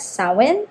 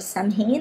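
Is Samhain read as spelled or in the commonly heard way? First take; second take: commonly heard; as spelled. First: The word is said the commonly heard way. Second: The word is read the way it is spelled. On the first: This is how others are heard to say it. The speaker calls it right. "I have heard it being called or pronounced as Samhain, and I think that is closer to the actual correct pronunciation" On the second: This is how a Filipino reader would read it. The speaker calls it wrong. "as a Filipino, actually we would read this as Samhain"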